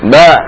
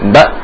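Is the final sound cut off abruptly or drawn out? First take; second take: drawn out; abrupt. First: The final sound is dragged out slightly. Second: The final sound stops abruptly. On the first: The speaker calls it wrong. "itu agak nyeret sedikit, tidak boleh" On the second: The speaker calls it right. "Tapi suara langsung mati"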